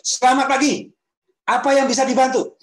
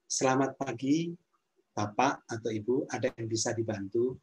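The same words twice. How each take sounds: First: Much higher and louder greeting, pitch pushed too far; shrill over-eager greeting, far up in pitch; overly high greeting. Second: Calm, friendly greeting in a mid, even pitch; friendly service greeting. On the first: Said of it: "Kan beda ya misalnya". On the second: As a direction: greet a guest kindly, pitch kept modest. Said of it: "intonasi yang ramah itu intonasi". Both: Shown as a demonstration.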